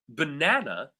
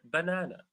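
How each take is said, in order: First: The stress is on the second syllable. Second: No syllable is stressed more than another. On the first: "second syllable" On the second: "it doesn't fall on any syllable"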